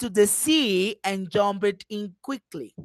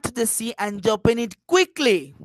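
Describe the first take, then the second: First: The word "sea" carries the main stress. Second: The word "quickly" carries the main stress. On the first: It was at the sea and no other place. "I am emphasizing the sea" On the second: It was done quickly and in no other way. "I am going to emphasize quickly"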